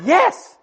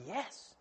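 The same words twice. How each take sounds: First: High, loud, emphatic yes; amazed yes. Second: Said in the usual way. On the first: Retold or imitated. Preacher retelling the unexpected answer, amazed. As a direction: hit it high and loud, astonished.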